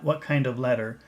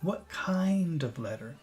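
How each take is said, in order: First: The word kind is not stressed or lengthened. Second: The word kind is stressed and lengthened. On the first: The speaker calls it wrong. "Not what kind of letter" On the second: The speaker calls it right. "that word kind is definitely a word where you want to focus"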